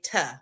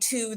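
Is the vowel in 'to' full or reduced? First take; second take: reduced; full. First: The vowel is reduced to a short uh. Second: The vowel is a full clear oo. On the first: The speaker calls it wrong. "I say "tuh"" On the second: The speaker calls it right. "instead of"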